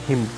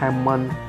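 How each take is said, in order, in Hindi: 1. अंतिम n silent है। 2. अंतिम n बोला जाता है। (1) "इसको बोलेंगे हिम" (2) "इसको हैमन या हाइम नहीं बोलेंगे"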